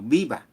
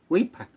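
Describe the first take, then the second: First: It starts with b and has a v. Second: It starts with w and has a p. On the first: This is the original Spanish word. "por no decir viva" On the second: This is how Aymara speakers managed to say it. "con suerte pronunciaban wi, wipa"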